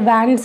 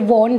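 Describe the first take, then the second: First: The vowel sounds like the one in 'cat'. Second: The vowel sounds like the one in 'hot'. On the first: The speaker calls it wrong. "वैंड्स नहीं होता है" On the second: The speaker calls it right. "ये वॉन्ड होता है"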